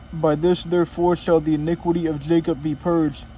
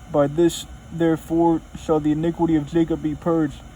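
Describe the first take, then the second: The two takes are said the same way.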